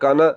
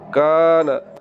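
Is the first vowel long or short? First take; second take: short; long. First: The first vowel is short. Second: The first vowel is long. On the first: The speaker calls it wrong. "अगर आपने ज़बर को लंबा ना किया" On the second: The speaker calls it right. "इसको लंबा करना है"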